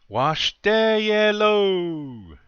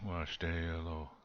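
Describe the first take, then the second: First: It is said in a warm, friendly tone. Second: It is said in a flat, unfriendly tone.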